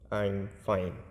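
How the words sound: It is said in a quiet, low voice. The person is actually sad. "with a quiet and low voice"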